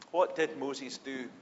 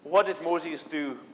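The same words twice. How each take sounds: First: Softer, slow, lowered question; hushed repeat. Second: Said in the usual way. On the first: Shown as a demonstration. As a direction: draw them in with a quiet echo.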